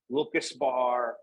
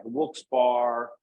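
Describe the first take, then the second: First: Wilkes Bar with an extra vowel, "Wilk-us-bar"; three-syllable "bar" pronunciation. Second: Wilkes Bar in two syllables, ending like candy bar; "bar" pronunciation. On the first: Local showing the town debate, Wilkes Bar as "Wilk-us-bar". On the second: Local showing the town debate, Wilkes Bar as two syllables. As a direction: slowly say Wilkes Bar, rhyming with car. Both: Shown as a demonstration. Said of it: "how to pronounce".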